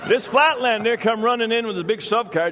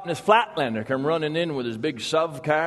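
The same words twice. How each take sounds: First: Vermont logger retelling it higher and louder over the laugh; louder retake. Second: Said in the usual way. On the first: Acted. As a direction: punch it again, bigger, riding the audience laugh. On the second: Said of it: "you've got the accent down".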